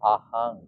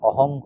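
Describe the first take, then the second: First: The vowels sound closer to a. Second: The vowels sound closer to o. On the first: The speaker calls it right. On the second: The speaker calls it wrong.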